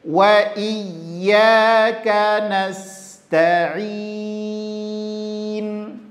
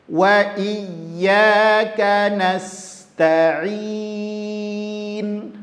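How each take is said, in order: No difference in how they are said.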